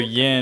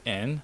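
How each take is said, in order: First: The word begins with a Y sound. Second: The word begins with a vowel, without Y.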